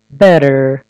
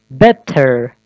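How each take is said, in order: First: Better with the T as a quick D, like bedder; flap T. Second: Better with a crisp hard T; wrong clear T. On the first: Teacher models the flapped T in better. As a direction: flick the T in better into a fast D. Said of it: "better деп окулат". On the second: Teacher shows the wrong, stiff T in better. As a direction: say Better with the T fully released. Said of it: "Better деп окубайбыз". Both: Shown as a demonstration.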